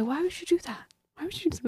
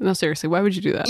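First: Softer, higher mock disbelief; mock bafflement. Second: Said in the usual way. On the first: Teasing the heretics with hushed mock disbelief. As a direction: ask it as if truly baffled.

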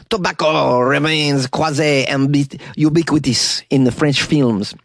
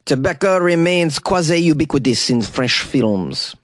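First: Slow mock French accent on Tobacco remains quasi-ubiquitous. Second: Said in the usual way. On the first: Shown as a demonstration. Host trying a slow French accent on the quote. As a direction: drawl it like a Frenchman, slowly. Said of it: "I don't know if that's a good French accent". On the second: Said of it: "Do you know what I said there?".

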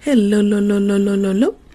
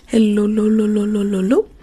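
The two takes are said the same way.

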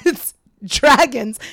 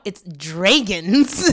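First: "dragons" with a short a, as DRAG-uns, loud and slow; corrected pronunciation. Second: "dragons" drawn out as DRAY-guns; mispronounced dragons. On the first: Group correcting Scott, loud slow "dragons" with short a. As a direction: firmly stretch "dragons" with the a of cat. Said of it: "And we're like, "No, Scott". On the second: Imitating Scott correcting the group, "dragons" as DRAY-guns. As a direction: stretch "dragons" with a long ay, draygons. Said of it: "pronounces the word dragons like dragons". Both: Retold or imitated.

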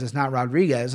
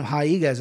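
First: "Rodriguez" with a hard English R, "rod-ree-guez"; wrong pronunciation. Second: "Rodriguez" said with a breathy h-like start, "ha-ee-guez"; correct pronunciation. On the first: Host mocking the wrong version of her name, anglicized. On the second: Host correcting how fans say her name, sounding out the Portuguese way. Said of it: "that's how you gotta say her name". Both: Shown as a demonstration.

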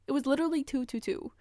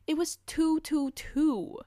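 First: Fast excited repeat. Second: High, slow amazed "two two two"; amazed reveal. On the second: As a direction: let the wonder lift it up high. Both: Real, not acted.

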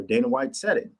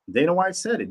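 First: Said in the usual way. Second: Repeating "said" higher for emphasis; emphatic repeat. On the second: Shown as a demonstration. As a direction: hammer home "said" with a higher retake.

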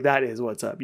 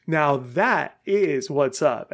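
First: Said in the usual way. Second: Slow, weighty "that is"; emphatic stress on IS. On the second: Retold or imitated. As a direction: draw out "is" as a verdict. Finally granting friend's catchphrase.

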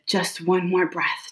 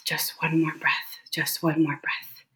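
First: Said in the usual way. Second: Breathless whisper to herself. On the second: Retold or imitated. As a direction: barely whisper it, clinging on. Breathing through a medical crisis.

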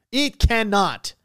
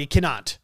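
First: It cannot, drawn out slowly, each word weighted; slow it right down to insist; slow emphatic repeat. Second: Said in the usual way. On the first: Real, not acted. Insists, then repeats slower.

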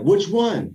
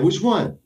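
First: A mock shout to the first sergeant; shouted question. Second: Loud, higher repeated call; shouted question. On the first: Soldier shouts from formation asking which Brown, loud and high. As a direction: call it out loud and higher across formation. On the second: Retold or imitated. Soldier repeats his shout from formation, loud and high. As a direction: shout it again down the line. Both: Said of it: "I shouted out".

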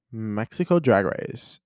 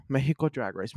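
First: Said in the usual way. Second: "Mexico" as MEH-hee-koh, then English words; Spanish pronunciation. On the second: Real, not acted. Redoing the show title, "Mexico" in Spanish, MEH-hee-koh. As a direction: say "Mexico" with a soft h for the x. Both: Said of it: "I don't know why I said Mexico".

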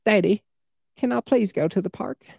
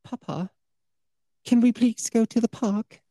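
First: Put-on high-pitched little Southern child; put-on Southern accent, child's voice; Southern kid. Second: Put-on high-pitched little British child; put-on British accent, child's voice; British kid. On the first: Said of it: "A kid with a Southern accent". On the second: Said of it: "a kid with a British accent". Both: Shown as a demonstration.

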